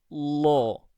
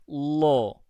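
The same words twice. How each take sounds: Both takes have the same delivery.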